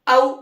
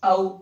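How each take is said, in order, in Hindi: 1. स्वर कठोर ज़ोर के साथ बोला जाता है। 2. स्वर नरमी से और धीरे से बोला जाता है। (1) "ये सख्ती से हो गया" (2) "नरमी से भी पढ़ा गया"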